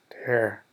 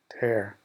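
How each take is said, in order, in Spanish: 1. Suena como la palabra que significa rasgar. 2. Suena como la palabra que significa rasgar.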